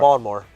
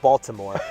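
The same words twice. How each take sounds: First: The middle consonant sounds like a D. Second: The middle consonant sounds like a T. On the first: "I said it with a D" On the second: "instead of Baltimore"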